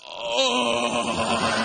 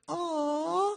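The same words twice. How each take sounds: First: It is said in a coarse, rough voice. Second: It is said in a soft, smooth voice.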